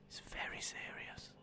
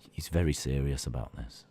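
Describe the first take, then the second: First: Hushed, voiceless mock threat; menacing whisper. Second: Very low, ominous voice; mock-grave threat. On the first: Streamer warning chat about blocking, ominous whisper. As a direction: repeat it in a barely audible whisper. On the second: Streamer warning chat about blocking, deep mock menace.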